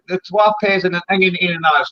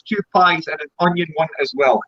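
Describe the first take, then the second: First: Broad Dundee Scots, words run together; broad Scots "pehs" and "ingin"; Dundee dialect. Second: Said in the usual way. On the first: Shown as a demonstration. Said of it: "Two pies and an onion one as well for". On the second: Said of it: "for English".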